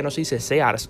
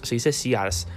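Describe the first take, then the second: First: "Sears" said as SE-ars, with an open "e"; Spanish pronunciation. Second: "Sears" said as SI-ars, with an "ee" vowel; corrected English pronunciation. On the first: Quoting the gringa correcting brands, "Sears" the Spanish way, "se-ars". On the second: Quoting the gringa correcting brands, "Sears" the English way, "see-ars". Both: Retold or imitated. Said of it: "salió corrigiendo la pronunciación".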